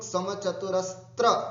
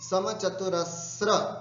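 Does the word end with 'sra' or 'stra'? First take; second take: stra; sra. First: The word ends with a 'stra' sound. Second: The word ends with a 'sra' sound. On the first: The speaker calls it wrong. "ये कई लोग समचतुरस्त्र त्र करते हैं" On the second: The speaker calls it right. "नहीं, समचतुरस्र"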